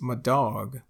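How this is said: It is said Texas-style, 'my' like 'muh'.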